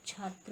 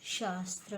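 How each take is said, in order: First: छात्र starting with chh, chhatra; correct pronunciation. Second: शास्त्र with sh, shastra; wrong pronunciation. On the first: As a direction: open छात्र on aspirated ch. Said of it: "होता है". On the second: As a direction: begin शास्त्र on sh for chh. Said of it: "नहीं होता". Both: Shown as a demonstration.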